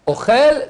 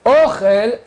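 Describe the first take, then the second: First: Ochel rising, stress on the last syllable, o-CHEL; stress for eats. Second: Ochel high and loud, stress on the first syllable, Ó-chel; stress for food. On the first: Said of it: "c'est il mange". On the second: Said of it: "c'est la nourriture". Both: Shown as a demonstration.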